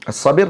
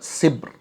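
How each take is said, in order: First: The second vowel is an i sound. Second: It has an i sound and no second vowel. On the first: "Dibacakan dengan kasrahkan ba" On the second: "wa kasriha"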